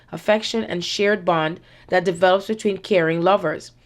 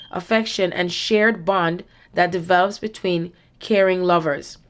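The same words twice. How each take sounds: The two takes are said the same way.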